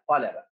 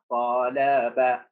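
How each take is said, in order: First: Said in the usual way. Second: طلب split slowly as ta, la, ba; low, very slow طلب, a gap after each syllable; word cut into syllables. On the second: Shown as a demonstration. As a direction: sound out طلب syllable by syllable for spelling. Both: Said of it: "قطع الكلمة".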